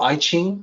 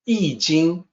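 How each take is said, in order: First: The name is said with English-style sounds. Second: The name is said with Mandarin sounds. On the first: The speaker calls it wrong. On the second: The speaker calls it right.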